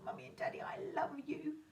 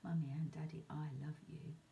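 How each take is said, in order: First: It is said with strong excitement. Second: It is said calmly and flatly.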